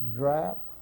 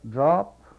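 First: The word is said with an open a vowel. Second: The word has its standard vowel.

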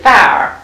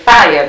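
First: The word is said as one syllable. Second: The word is said as two syllables. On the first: The speaker calls it right. "It's really fire" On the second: The speaker calls it wrong. "We say fire, just like it's two syllables"

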